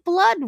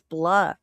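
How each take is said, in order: First: The final D sound is clearly pronounced. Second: The final D sound is left off. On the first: The speaker calls it right. "say blood right" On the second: The speaker calls it wrong. "He doesn't pronounce the D"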